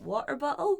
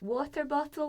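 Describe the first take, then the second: First: The t sounds are replaced by glottal stops. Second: The t sounds are pronounced as clear t's. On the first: The speaker calls it wrong. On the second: The speaker calls it right. "being told it's"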